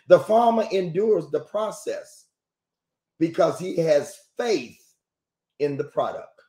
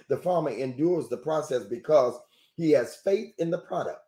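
First: It is said slowly. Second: It is said at normal speed.

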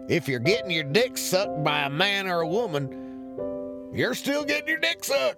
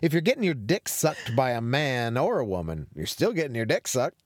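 First: It is read in a put-on character voice. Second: It is read in the speaker's natural voice.

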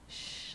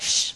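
First: The shush sounds soft and soothing. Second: The shush sounds sharp and stern. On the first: It's going to be okay. "like really calming" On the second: Be quiet, as a scolding command. "But it's not like that, shh, be quiet, like the teacher"

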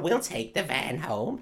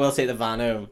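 First: The put-on voice sounds harsh and monstrous. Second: The put-on voice sounds softer and less harsh. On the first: The speaker calls it wrong. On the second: The speaker calls it right.

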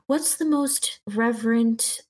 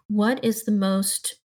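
First: It is said in the Keva character voice. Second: It is said in the speaker's own voice.

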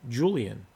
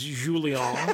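First: The name is said with an English pronunciation. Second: The name is said with a French pronunciation. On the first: "as I would say it, and as it's written" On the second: "if you're French, it's Julien"

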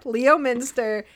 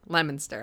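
First: The name is said with four syllables. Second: The name is said with three syllables. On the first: The speaker calls it wrong. "I have pronounced it Lemster, Leo Minster" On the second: The speaker calls it right. "no, it's pronounced Lemonster"

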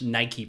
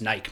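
First: It is said with two syllables, ending in ee. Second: It is said with one syllable, rhyming with bike. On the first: The speaker calls it right. "I've never pronounced the word Nike properly" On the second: The speaker calls it wrong. "I've pronounced it as Nike my whole life. ... it rhymes with bike"

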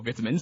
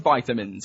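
First: The word has a British pronunciation. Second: The word has an American pronunciation.

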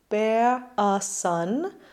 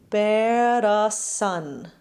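First: A glottal stop separates 'bear' and 'a'. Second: A flipped R links 'bear' and 'a'. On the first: "we could either make the glottal between these two words" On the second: "or we can flip an R between them"

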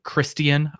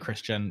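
First: The name is said in a fancy, foreign-sounding way. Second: The name is said in a plain American way. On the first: It imitates how other people say the name. The speaker calls it wrong. "as a lot of characters like to pronounce it" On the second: It is the ordinary way to say the name. The speaker calls it right.

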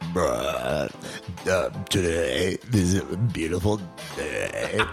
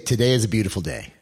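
First: It is said in a put-on toad voice. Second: It is said in a normal voice.

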